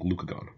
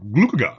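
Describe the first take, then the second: First: The word is pronounced in the ordinary way. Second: The word is pronounced in an odd, funny way.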